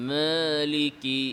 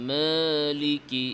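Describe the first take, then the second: The two takes are said the same way.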